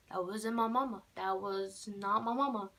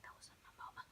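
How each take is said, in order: First: Said in the usual way. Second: Hushed, breathless whisper; scared whisper. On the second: Retold or imitated. Turning away from mom, a frightened whisper. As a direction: whisper it so mom can't hear. Turned around, scared aside.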